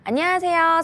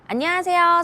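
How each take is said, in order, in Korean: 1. 저음이 강조되어 묵직하게 들려요. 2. 고음이 강조되어 선명하게 들려요. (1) "풍부한 톤" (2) "밝은 톤"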